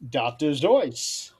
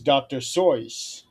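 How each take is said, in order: First: The surname begins with a z sound. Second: The surname begins with an s sound. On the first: The speaker calls it right. "It's actually pronounced doctor Zoyce" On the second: The speaker calls it wrong. "another mispronunciation"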